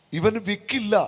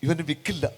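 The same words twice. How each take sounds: First: ഇവന് വിക്കില്ല declared on raised pitch; emphatic proclamation. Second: Said in the usual way. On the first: Real, not acted. Preacher announces the healing to the gathering, ഇവന് വിക്കില്ല proclaimed high. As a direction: lift ഇവന് വിക്കില്ല higher, as a firm announcement.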